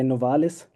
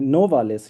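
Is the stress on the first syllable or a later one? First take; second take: later; first. First: The stress is not on the first syllable. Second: The stress is on the first syllable. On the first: This is how people usually say the name. "Usually we say Novalis" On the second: This is how the man named himself. "he himself put the emphasis on uh, the first syllable of the name"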